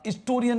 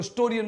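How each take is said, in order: First: The word begins without an h sound. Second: The word begins with an h sound. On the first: The speaker calls it wrong. "हिस्टोरियन नहीं बोलते इसको" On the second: The speaker calls it right. "ऐसे है से होता है हिस्टोरियन"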